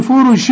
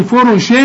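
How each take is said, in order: First: "فرش" ending in a plain closed-lip m; wrong full meem. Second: "فرش" ending in a clear tongue-tip n; wrong clear noon. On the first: Teacher warns against turning it to meem, full m. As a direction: shut the lips fully on the final m of "فرش". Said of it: "وتحولها للميم". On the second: Teacher warns against turning it to noon, clear n. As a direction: put the tongue up for a plain n after "فرش". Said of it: "وتحولها للنون". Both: Shown as a demonstration.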